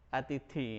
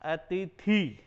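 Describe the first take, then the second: First: The final vowel is said short. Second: The final vowel is said long. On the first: The speaker calls it right. "जबकि शुद्ध उच्चारण है अतिथि" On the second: The speaker calls it wrong. "यानी कि मात्रा इसकी थी की जगह"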